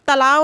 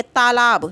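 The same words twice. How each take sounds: First: तालाब with short first vowel and final v, talaav; wrong form. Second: तालाब with long first vowel and final b; correct form. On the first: Teacher showing students the faulty pond word, wrong form. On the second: Teacher giving students the proper pond word, correct form. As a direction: say taa-laab for तालाब, both vowels long. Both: Shown as a demonstration. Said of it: "तालाब नहीं है".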